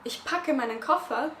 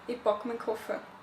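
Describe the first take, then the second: First: It is said in a standard German accent. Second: It is said in an Austrian German accent.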